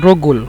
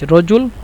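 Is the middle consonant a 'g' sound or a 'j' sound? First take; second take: g; j. First: The middle consonant is a hard 'g' sound. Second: The middle consonant is a 'j' sound. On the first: "মিশরীয় জিমকে গইন বলে এজন্য রগুল" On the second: "জিম বলে"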